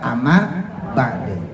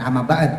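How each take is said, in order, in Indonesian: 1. Bunyi d terakhir dilepas dengan gema memantul. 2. Bunyi d terakhir berhenti datar, tanpa gema. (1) "kalau mau dimatiin amma ba'de" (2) "jangan amma ba'd"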